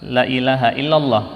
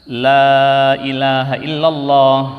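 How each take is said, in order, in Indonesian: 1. Vokal pada 'la' dibaca pendek. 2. Vokal pada 'la' dibaca panjang. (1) "karena saking cepatnya orang baca" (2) "ini adalah bacaan yang benar"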